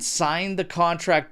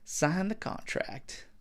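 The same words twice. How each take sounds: First: It is said in his natural voice. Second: It is said in a put-on impersonated voice.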